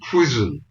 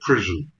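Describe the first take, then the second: First: The r sound is weak, like a w. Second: The r sound is pronounced clearly. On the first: "He says prison, because he can't pronounce the R's" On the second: "He never in his life said prison"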